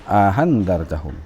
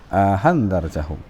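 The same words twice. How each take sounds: The two takes are said the same way.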